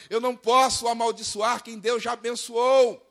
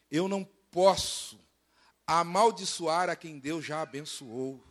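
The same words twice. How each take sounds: First: Higher, emphatic quoted refusal; quoted sorcerer's proclamation. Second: Slow, deliberate quoted refusal; quoted sorcerer's declaration. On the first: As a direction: proclaim the sorcerer's words with preacher's force. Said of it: "olha o macumbeiro falando". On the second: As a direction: spell it out slowly and solemnly. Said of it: "E ele fala assim". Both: Acted.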